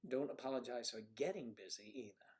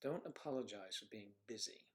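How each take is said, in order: First: "getting" lifted in pitch as the contrasting word; stress on getting. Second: Said in the usual way. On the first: Real, not acted. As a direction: lean on "getting" to set it apart. Playful contrast with being busy.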